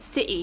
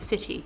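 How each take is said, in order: First: The middle t is a glottal stop. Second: The middle t is a clear t sound. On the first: "with a more relaxed British accent, ... there's like what we call a glottal stop, which is city" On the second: "So for R P, it's city with a kind of T"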